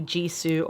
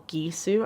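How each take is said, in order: First: "Jisoo" starting with a soft J sound; soft G pronunciation. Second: "Gisoo" starting with a hard G; hard G pronunciation. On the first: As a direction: say "Jisoo" with the j of "jeep". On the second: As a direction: say "Gisoo" with the g of "geese". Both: Shown as a demonstration. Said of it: "I don't know how to pronounce it".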